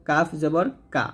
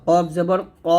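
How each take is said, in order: First: Light কাফ and কা; thin K. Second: Thick কফ and rounded ক; heavy Q. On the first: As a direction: keep কা thin. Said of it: "কাফ পাতলা". (পাতলা করে কা) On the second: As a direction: push ক from far back. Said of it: "কফটা মোটো হবে". (মোটা করে কফ, ক) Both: Shown as a demonstration.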